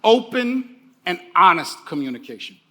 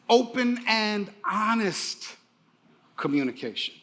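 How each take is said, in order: First: Said in the usual way. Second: Slow emphatic phrase. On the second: Shown as a demonstration. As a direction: stretch out open and honest, then let communication drop away. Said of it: "One more time".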